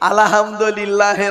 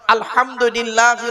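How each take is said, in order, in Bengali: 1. h ধ্বনিটি হালকা, সাধারণ শ্বাসযুক্ত h। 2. h ধ্বনিটি কর্কশ, গলার গভীর থেকে আসে। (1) "আর আমরা উচ্চারণ করতে গিয়ে কি বলি" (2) "এ গলার ভেতর থেকে হে এটা উচ্চারণ করবেন, হাই হতি, হাই হাওয়াজ নয়।"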